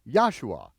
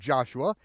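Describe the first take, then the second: First: The name begins with a Y sound. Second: The name begins with a J sound. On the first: The speaker calls it right. "pronounce it as a Y" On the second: The speaker calls it wrong. "It's not Joshua"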